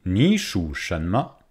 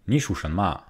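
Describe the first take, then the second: First: "Ni shu shanma" drawn out at half speed, "Ni" rising as a second tone; careful, syllable-by-syllable "Ni shu shanma" for repetition; slow model question. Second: "ni shu shanma" run together, the open e of "shanma" turned almost to a; Beijing-style "ni shu shanma" at everyday speed; Beijing accent. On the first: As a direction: say "Ni shu shanma" slowly in textbook Mandarin. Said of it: "Encore une fois, la question". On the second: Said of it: "l'accent de Pékin". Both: Shown as a demonstration.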